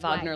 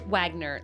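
First: The name is pronounced the German way. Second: The name is pronounced the English way. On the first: This is how the composer's name is said. The speaker calls it wrong. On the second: This is how the listener's own surname is said. The speaker calls it right.

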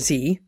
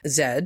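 First: The letter is said the American way, 'zee'. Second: The letter is said the British way, 'zed'.

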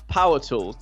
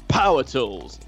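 First: It is said in an ordinary speaking voice. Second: It is said in a deep, gruff, manly voice. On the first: The speaker calls it wrong. "You can't say it in a normal voice, it doesn't work" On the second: The speaker calls it right.

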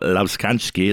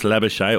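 First: The name is said with an Afrikaans pronunciation. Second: The name is said the usual Australian way.

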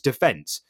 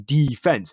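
First: The word is said the British way. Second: The word is said the American way. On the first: "In English, it's defense" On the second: "It has to be defense"

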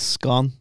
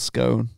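First: The word rhymes with gone, with a short vowel. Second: The word rhymes with stone, with a long vowel. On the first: "It's well gone, that. It's scone" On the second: "Or scone, depending on where you're from"

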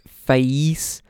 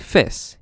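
First: The vowel glides as a diphthong. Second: The vowel is a steady near monophthong. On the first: "which in Cockney sounds like face" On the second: "slides closer to fess"

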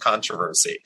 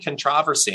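First: It is said the American way. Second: It is said the British way. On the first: It is what the children would normally say. "and not controversy" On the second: It is what the children picked up from the show. "why are they saying controversy"

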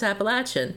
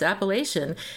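First: It is said the Southern way. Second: It is said the Pennsylvania way. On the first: This is how the name is said in the South. "in the South it's Appalachian" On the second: This is how the name is said in the North. "in Pennsylvania it's Appalachian"

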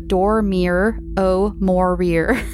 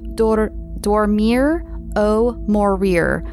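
First: It is said with an English accent. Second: It is said with a Spanish accent.

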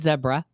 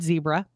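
First: It rhymes with Deborah. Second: It does not rhyme with Deborah. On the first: This is how the locals say it. "because it sounds like Deborah" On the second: This is the usual way people say it. "she no longer said zebra"

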